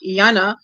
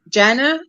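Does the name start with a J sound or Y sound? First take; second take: Y sound; J sound. First: The name starts with a Y sound. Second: The name starts with a J sound. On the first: This is how Afrikaans speakers say it. "we say Yana because the J is like a Y in your language, pronounced softly" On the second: This is how the name's owner says it. "if she pronounces it, it's ja- Jana"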